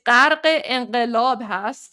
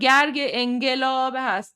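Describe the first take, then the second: First: It uses throaty q sounds. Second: It uses hard g sounds. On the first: This is the native Persian pronunciation. "if you can pronounce qa" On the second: This is an easier version for non-natives. "just use the hard G"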